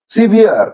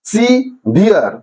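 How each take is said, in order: First: Said in the usual way. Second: severe slowly split in two; syllable by syllable. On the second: Shown as a demonstration. Teacher showing students how to pronounce severe, slow separate syllables. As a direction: say severe as সি, ভিয়ার, with a gap. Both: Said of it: "কিভাবে তোমরা উচ্চারণ করবে syllabic ডিভিশনে".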